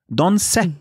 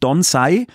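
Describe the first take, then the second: First: The name ends with a short 'e' vowel. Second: The name ends with an 'ai' diphthong. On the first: The speaker calls it right. "Mit einem kurzen E" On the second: The speaker calls it wrong. "die heißt nicht Don Sai"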